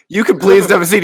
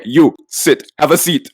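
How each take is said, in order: First: Higher, courteous invitation to sit; imitating the polite way a waiter should talk; polite request. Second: Blunt two-word order; just tell them to sit, no courtesy; imitating the rude waiter ordering them to sit; curt command. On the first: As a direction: offer the seat kindly. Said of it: "instead of, like, being like". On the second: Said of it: "he's like".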